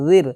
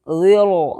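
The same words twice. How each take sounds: First: The r sound is light and thin. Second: The r sound is heavy and full. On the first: The speaker calls it right. "रा साकिन बारिक होगी" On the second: The speaker calls it wrong. "ज़िर नहीं बोलना है"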